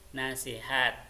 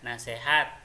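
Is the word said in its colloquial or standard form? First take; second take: standard; colloquial. First: The word is said in its standard form. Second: The word is said in its colloquial form. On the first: The speaker calls it right. "yang sesuai dengan ejaan bahasa Indonesia itu nasihat" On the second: The speaker calls it wrong. "itu tidak baku pengucapannya ya"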